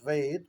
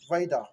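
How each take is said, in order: First: The word ends in a consonant sound. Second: The word ends with an added 'a' vowel. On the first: This is the original native form. The speaker calls it right. "So the real world is" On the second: This is how the British said it. The speaker calls it wrong. "but they pronounce it as"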